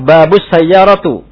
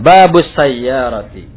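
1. Kata terakhir berakhir dengan vokal 'u'. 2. Kata terakhir berakhir dengan vokal 'i'. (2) "harus kasroh"

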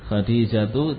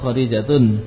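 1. Kata ini berakhir pada vokal tanpa n. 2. Kata ini berakhir dengan bunyi n tambahan. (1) "sudah mantap seperti itu" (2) "atau Khadijatun"

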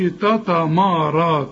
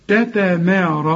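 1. صوتا التاء والميم ثقيلان. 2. صوتا التاء والميم خفيفان. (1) "ما تقولش تتمارى" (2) "انما التاء والتاء والميم والمد كمان"

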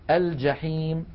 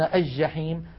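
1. اللام تُنطق بوضوح قبل الجيم. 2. اللام تُدغم في الجيم المشددة. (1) "لكن الفصحى أن نقول" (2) "هذا لا يصح"

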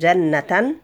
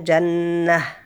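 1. تنتهي الكلمة بصوت 'tan' أنفي. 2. تنتهي الكلمة بصوت هاء خفيفة. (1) "لو عليها فتحتين" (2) "نقف عليها جنة بالهاء"

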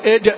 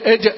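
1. صوت j شديد ومنقطع بوضوح. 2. صوت j شديد ومنقطع بوضوح.

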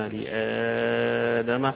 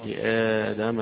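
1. يُمَدّ المد الطويل ست حركات. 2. يُمَدّ المد الطويل حركتين. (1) "وستة" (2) "حركتين"

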